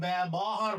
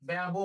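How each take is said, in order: First: ব্যবহার with a full vowel after ব, said bæbɔhar; wrong pronunciation. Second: ব্যব said as bæbo, closed o; correct pronunciation. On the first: Teacher shows how students should not say the word. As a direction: say ব্যবহার as bæ-bɔ-har with the ɔ pronounced. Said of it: "বলি না". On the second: Teacher models the spoken form of the word for students. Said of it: "বলি". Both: Shown as a demonstration.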